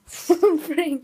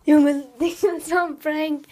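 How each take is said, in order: First: Loud. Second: Loud laugh, slow; laughing shout. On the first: Repeats loudly. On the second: Laughing loudly after prank. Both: Real, not acted.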